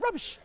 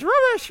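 First: "Rubbish" in a posh English accent, much higher; lightly done English accent on "Rubbish". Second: Another way. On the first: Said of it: "Throw in an English accent". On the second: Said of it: "Or you can go like this". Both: Shown as a demonstration.

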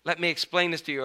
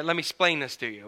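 First: Said in the usual way. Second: "explain" clipped to "splain"; regional "splain". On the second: Shown as a demonstration. Preacher mimicking local speech, "explain" said as "splain". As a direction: drop the first syllable of "explain", saying "splain". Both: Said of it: "if you're from an area".

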